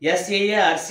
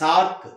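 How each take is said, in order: First: Each letter is said separately. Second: It is said as one single word. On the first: The speaker calls it wrong. "అని చదవం దీన్ని" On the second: The speaker calls it right. "సార్క్ అని చదివాం"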